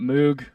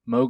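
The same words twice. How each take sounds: First: The vowel sounds like the one in 'moo'. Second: The vowel sounds like the one in 'vogue'. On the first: "I was calling it Moog. I feel like that's the way I hear people say it the most" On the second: "Moog like Vogue. And that's how you pronounce it"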